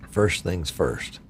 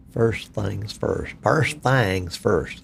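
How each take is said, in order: First: Said in the usual way. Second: Slow, stretched-out Southern accent; exaggerated Alabama accent. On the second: Shown as a demonstration. Streamer showing how people think they talk down here, hammed-up Southern accent. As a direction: stretch THINGS into a drawn-out Southern "thangs". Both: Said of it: "That's how they say it down here".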